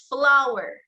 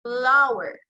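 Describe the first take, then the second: First: Flower said clearly for its F; careful teaching word, flower; demo word flower. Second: Flower with lip on teeth for F; slow teacher demo of Flower; demo word Flower. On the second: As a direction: model the F in Flower. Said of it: "lower lip comes in contact with the upper front teeth". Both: Shown as a demonstration.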